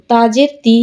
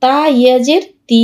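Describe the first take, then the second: First: No stretch on তি; short vowel. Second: Long, sustained তি; drawn-out vowel. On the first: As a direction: end on a short তি. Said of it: "এখানে আবার হরকত". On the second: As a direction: hold the final তি for one alif count. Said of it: "এক আলিফ টেনে পড়তে হয়". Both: Shown as a demonstration.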